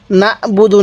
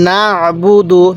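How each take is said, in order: First: না'বুদু with a hamza instead of ain; না'বুদু without the throaty ain; common mistake demo. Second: না'বুদু with a throaty, voiced ain; measured না'বুদু, ain clearly sounded; correct recitation demo. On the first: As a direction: make a plain glottal break in না'বুদু. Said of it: "অনেকে আইনটাকে হামজা উচ্চারণ করি". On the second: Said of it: "কিভাবে পড়ব?". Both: Shown as a demonstration.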